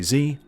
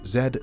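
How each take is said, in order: First: The letter is pronounced 'zee', American style. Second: The letter is pronounced 'zed', British style. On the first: "I am not American, I do not say Z" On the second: "I am English"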